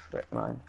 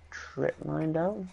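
First: Low, quiet repeat to himself; low mutter. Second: Said in the usual way. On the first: Real, not acted. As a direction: mutter it under your breath, low.

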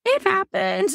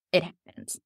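First: High sing-out; high, lifted little aside; high-pitched. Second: Said in the usual way. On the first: Real, not acted. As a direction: pitch it way up, brief and light. Repeats same words in high voice.

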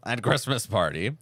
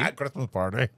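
First: At Christmas party said again the same way, rising; defending her own phrasing; defiant repeat. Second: At Christmas party with the article dropped, teasing rise; mock echo of the odd phrasing. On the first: Shown as a demonstration. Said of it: "Well, I was like". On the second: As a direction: parrot At Christmas party back with a rising tease. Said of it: "You said it very".

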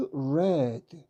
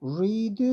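First: "read" said red with a short e; "read" as red, past tense. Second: "read" said reed with a long ee; "read" as reed, not red; present read as reed. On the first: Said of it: "read 이렇게 발음합니다". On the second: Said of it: "이게 에 발음이죠". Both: Shown as a demonstration.

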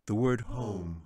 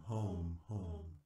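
First: Said in the usual way. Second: "home," much softer, like a far-off echo. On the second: A narrator's reading. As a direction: let "home," fade away as an echo in a hall. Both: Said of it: "echoed throughout the chamber".

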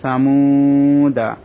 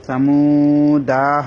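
First: "সামুদা" with long muu, short final da; correct recitation. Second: "সামুদা" with the final daa dragged long; wrong lengthening. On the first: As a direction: recite "সামুদা" holding only the middle vowel. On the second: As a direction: say "সামুদা" stretching muu and also daa. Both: Shown as a demonstration. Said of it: "সামুদা হবে না".

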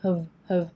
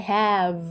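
First: "have" as a very short, weak "huv"; short reduced have. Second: "have" drawn out with a full a vowel; long full have. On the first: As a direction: cut "have" to a quick schwa. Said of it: "สระเอะ แล้วก็สั้นๆกว่าเดิมอีก". (have สั้นๆ เหลือแค่ "เหิฟ") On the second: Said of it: "อันนี้ยาว". (ลากเสียง have ยาวเต็มสระแอ) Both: Shown as a demonstration.

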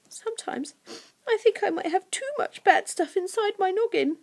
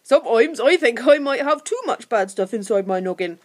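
First: Put-on high, hesitant girl's voice; small, tearful confession in high pitch; mistaken girl's voice. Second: Louder goblin voice with broad vowels; rough creature owning up; confessing creature Scratch. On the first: Narrator reads the creature's confession, in girlish voice. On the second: Creature admits to Lucy his bad stuff, confessing. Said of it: "admitted Scratch". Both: A narrator's reading.

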